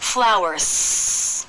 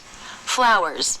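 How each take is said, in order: First: The word ends in a strong S. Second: The word ends in a weak, light S. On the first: The speaker calls it wrong. "It doesn't have a strong S. ... That's not correct" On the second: The speaker calls it right. "A really weak, light S"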